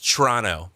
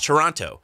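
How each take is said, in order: First: It is said the way people living there say it. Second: It is said the way outsiders usually say it. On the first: "it's Toronto from people there" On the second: "it's Toronto"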